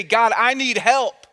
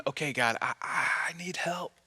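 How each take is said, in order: First: Raised, drawn-out cry for help; insistent, slow plea; emphatic plea. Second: Soft, stammered prayer sinking to a whisper; acted faltering, hushed prayer; hesitant whispered plea. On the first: Acted. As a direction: call out to God, higher and louder. Urges congregation to ask God. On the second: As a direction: whisper it haltingly, as if barely able to ask.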